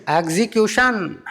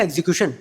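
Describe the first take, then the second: First: execution drawn out slow and firm with a falling close; stressed slowly. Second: Said in the usual way. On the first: Retold or imitated. Modi firmly correcting the comedian: execution, slow and stern. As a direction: land execution as a stern final word. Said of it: "वो बोले". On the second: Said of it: "sir, दो घंटे planning है".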